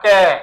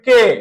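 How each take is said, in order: First: The vowel is an open ae sound. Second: The vowel is a closed e sound. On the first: The speaker calls it wrong. "এভাবে বলবো না" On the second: The speaker calls it right. "এটাকে আমরা কি বলবো সংবৃত বলবো"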